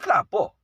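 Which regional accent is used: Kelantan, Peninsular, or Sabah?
Kelantan. It is said in a Kelantan regional accent. "Kemudian di Kelantan"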